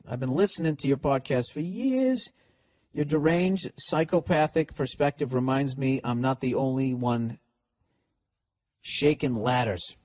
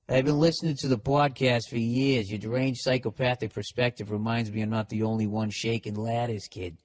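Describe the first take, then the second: First: It is read in his plain accent. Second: It is read in a Boston accent.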